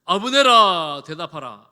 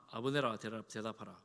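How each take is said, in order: First: Long, loud call across a distance. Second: Said in the usual way. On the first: Acted. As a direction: project like calling to a far hillside. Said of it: "다윗이 소리칩니다". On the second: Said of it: "소리칩니다".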